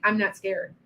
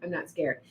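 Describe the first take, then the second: First: Said in the usual way. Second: Softer, dropped to near a murmur; quiet reassurance. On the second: Shown as a demonstration. Calming a frightened viewer, softly. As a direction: settle it down gently. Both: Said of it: "see, I'm not scared".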